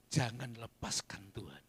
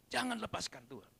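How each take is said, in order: First: Said in the usual way. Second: "Jangan" pushed higher and urgent; emphatic repeat. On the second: Shown as a demonstration. Pastor repeating the plea to hold on to God, higher and insistent. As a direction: lift "Jangan" up to drive the plea home.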